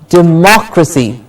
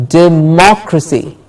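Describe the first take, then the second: No difference in how they are said.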